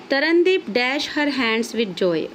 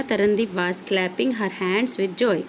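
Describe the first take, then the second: First: Reads the sentence slowly, saying the blank as dash; slow classroom reading with the gap still in; slow read-aloud. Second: Reads the filled sentence slowly, with the answer clapping in place; slow classroom reading of the completed sentence; slow read-aloud. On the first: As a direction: read it out word by word, blank included. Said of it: "और तरनदीप क्या करने लगी?". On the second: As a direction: read it out word by word, gap now filled. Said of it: "तो क्या आएगा?". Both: Shown as a demonstration.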